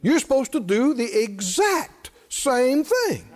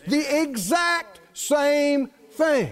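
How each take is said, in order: First: Said in the usual way. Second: "exact" drawn out slowly and stressed; slow down and lean on "exact"; each word weighed, "exact" stressed. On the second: Shown as a demonstration.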